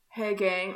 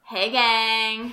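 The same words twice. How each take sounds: First: Said in the usual way. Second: Loud bro greeting; a louder bro voice; frat bro. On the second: Shown as a demonstration. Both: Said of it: "I was talking in my bro voice".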